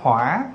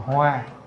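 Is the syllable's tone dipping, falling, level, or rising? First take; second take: dipping; level. First: The syllable has a dipping tone. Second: The syllable has a flat level tone. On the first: "là dấu hỏi" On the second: "lấy dấu huyền ra thành Hoa"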